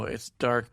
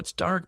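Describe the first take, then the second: First: It sounds flat and disappointed. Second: It sounds upbeat and enthusiastic. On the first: The balance is presented as a weakness. "when it's not selling" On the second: The balance is presented as an attractive quality. "as like a selling point"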